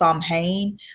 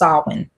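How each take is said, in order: First: The word is pronounced as it is spelled. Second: The word is pronounced differently from its spelling. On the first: The speaker calls it wrong. "I used to always say it was Samhain because it's actually spelled S A M H A I N" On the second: The speaker calls it right. "I think it's pronounced Samhain"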